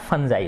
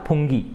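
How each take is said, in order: First: It is said with a j sound and ending eye. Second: It is said with a hard g and ending ee. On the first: The speaker calls it right. "इसका उच्चारण कैसे होता है, फंजाई होता है" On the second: The speaker calls it wrong. "पहले मैं इसको फुंगी बोलता था"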